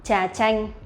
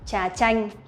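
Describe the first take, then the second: The two takes are said the same way.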